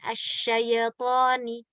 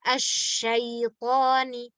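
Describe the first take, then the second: First: The 'y' bounces with an added vowel after it. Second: The 'y' is held still with no extra vowel. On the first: The speaker calls it wrong. "Bukan asyayatoni" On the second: The speaker calls it right. "La asyaitoni"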